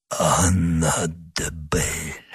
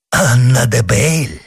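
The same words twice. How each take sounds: First: Slow, low, faint whisper of a wounded man. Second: Startled outcry of the name; exclaiming. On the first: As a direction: breathe the name out slowly, very weakly. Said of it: "прошептал раненый". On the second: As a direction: cry the name out in shock. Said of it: "воскликнул монах". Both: A narrator's reading.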